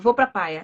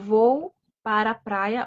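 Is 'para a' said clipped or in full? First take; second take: clipped; full. First: The words are shortened to a clipped 'pra'. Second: The words are said in full as 'para a'. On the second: "eu vou usar o para"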